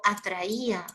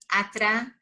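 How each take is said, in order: First: Said in the usual way. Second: "Atraía" split as atra, pause, ía; "Atraía" in two pieces, hiatus shown; broken into syllables. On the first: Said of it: "si yo te digo". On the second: Shown as a demonstration. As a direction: separate the "ía" of "Atraía" with a clear pause. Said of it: "Mira, observa este ejemplo".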